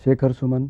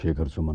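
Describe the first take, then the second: First: The voice is at a higher, normal pitch. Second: The voice is at a slightly lower pitch. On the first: "वो जैसे अभी ये मैं इस सुर में बोल रहा हूँ ना" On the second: "अब थोड़ा सा सुर नीचे गया"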